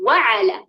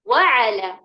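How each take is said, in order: First: The stress is on the first syllable. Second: The same.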